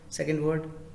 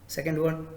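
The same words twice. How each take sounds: Both takes have the same delivery.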